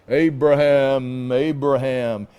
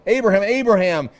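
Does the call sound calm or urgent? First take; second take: calm; urgent. First: The name is called calmly, without urgency. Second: The name is called urgently, like a sudden stop. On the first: A plain, unhurried call. The speaker calls it wrong. "instead of this" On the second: Stop right now, this must be interrupted. The speaker calls it right. "It's like, stop, urgent"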